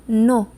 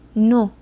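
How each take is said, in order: The two takes are said the same way.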